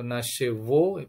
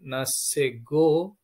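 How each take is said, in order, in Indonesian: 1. Konsonan sebelum vokal terakhir adalah v. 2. Konsonan sebelum vokal terakhir adalah g.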